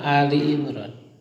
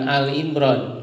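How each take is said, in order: First: The first word is said as two-syllable 'Ali'. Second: The first word is said as short 'Al'. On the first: The speaker calls it right. "bukan Al Imran tapi Ali" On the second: The speaker calls it wrong. "jangan salah membaca ya, bukan Al Imran"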